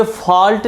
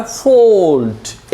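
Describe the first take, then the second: First: फॉल्ट with a flat a, falt, marked as wrong; wrong short a. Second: फॉल्ट with a long open o, folt; long o fault. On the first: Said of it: "ये फॉल्ट नहीं होता". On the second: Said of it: "ये होता है फॉल्ट". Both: Shown as a demonstration.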